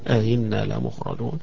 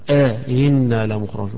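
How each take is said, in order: First: The opening vowel is kept short. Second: The opening vowel is drawn out long. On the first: "ولكن من غير مد" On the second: "يبقى هنا يمدها"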